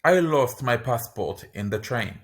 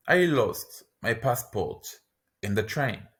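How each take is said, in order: First: Said in the usual way. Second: Slow, split after passport; I lost my passport, pause, in the train; slow, in two chunks. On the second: Shown as a demonstration. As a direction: break it into chunks for the learner. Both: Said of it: "lesson repeats phrase twice".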